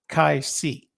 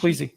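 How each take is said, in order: First: The first syllable sounds like 'kai'. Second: The first syllable sounds like 'kwee'. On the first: The speaker calls it right. "I think it's pronounced Kai Si" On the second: The speaker calls it wrong. "Shelley calls it"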